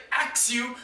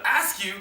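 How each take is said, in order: First: "ax you" with a clear ks; "ax" for "ask", plainly. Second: Said in the usual way. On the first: Shown as a demonstration. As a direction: say "ax you" the dialect way. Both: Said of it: "instead of".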